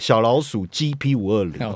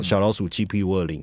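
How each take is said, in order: First: It is said slowly. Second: It is said fast.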